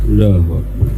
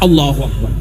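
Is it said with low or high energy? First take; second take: low; high. First: It is said weakly, without enthusiasm. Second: It is said with more enthusiasm.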